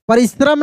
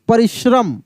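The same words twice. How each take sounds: First: The middle hissing sound is a plain 's'. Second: The middle hissing sound is a palatal 'sh'. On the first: The speaker calls it wrong. "परिश्रम नहीं" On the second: The speaker calls it right. "यही वाला श बुलाएगा, तलव्य श"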